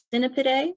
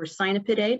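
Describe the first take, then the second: First: Cynipidae opening with a short "sin"; Cynipidae, starting like "sin"; first pronunciation variant. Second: Cynipidae opening with a long "sigh"; Cynipidae, starting like "sigh"; alternative pronunciation. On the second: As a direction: say Cynipidae with "sigh" as the first syllable. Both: Shown as a demonstration. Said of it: "how you like to pronounce it".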